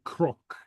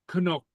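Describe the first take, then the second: First: The second consonant sounds like an R. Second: The second consonant sounds like an N. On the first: The speaker calls it right. "You say crook" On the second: The speaker calls it wrong. "so so you don't say Canuck"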